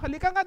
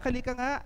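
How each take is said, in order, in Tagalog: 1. Sinabi ito sa mariin at pagalit na tono. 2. Sinabi ito sa malambot at malumanay na tono.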